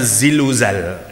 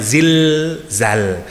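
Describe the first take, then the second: First: An extra vowel is inserted between l and z. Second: The l stops the syllable with no vowel after. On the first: The speaker calls it wrong. "Kalau ndak di stop jadinya" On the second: The speaker calls it right. "harus ada konsonannya"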